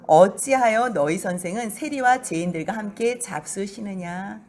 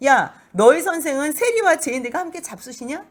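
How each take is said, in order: First: Sneering. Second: High, loud taunting question; a Pharisee taunting Jesus's disciples, mocking and loud; mocking sneer. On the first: Acted. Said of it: "뭐라고 비아냥거리냐면요". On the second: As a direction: jeer at the teacher so they hear. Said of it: "비웃는 거지요".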